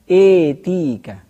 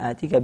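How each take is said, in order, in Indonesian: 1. Vokal setelah hamzah condong ke e. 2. Vokal setelah hamzah adalah a terbuka.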